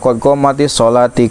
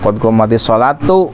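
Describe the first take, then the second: First: The final word ends with an 'i' vowel. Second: The final word ends with a 'u' vowel. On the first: The speaker calls it wrong. "Kade tong dibaca qad qamatis sholati, qad salah tuh" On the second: The speaker calls it right. "qad qamatis sholatu sabab jadi fa'il"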